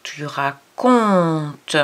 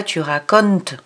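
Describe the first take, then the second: First: "racontes" very slow with a nasal "on", no N; right nasal, slowly. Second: "racontes" with the N sounded, "ra-co-ntes"; wrong reading. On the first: Teacher to child, saying "racontes" correctly and very slowly. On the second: Teacher to child, showing the wrong "racontes". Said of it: "On dit pas tu racontes". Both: Shown as a demonstration.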